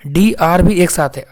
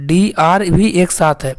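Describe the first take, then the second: No difference in how they are said.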